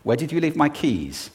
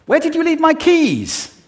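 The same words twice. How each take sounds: First: Said in the usual way. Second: Much higher and louder; high-pitched, aroused. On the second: Shown as a demonstration. Speaker showing how pitch changes a question's meaning, high-pitched. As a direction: send the pitch way up, agitated. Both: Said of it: "do it just with pitch".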